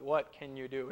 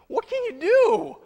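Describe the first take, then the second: First: It is said flatly, like a robot. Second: It is said as a lively exclamation.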